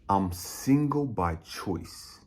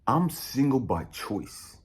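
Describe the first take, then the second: First: It is said slowly. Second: It is said at normal speed.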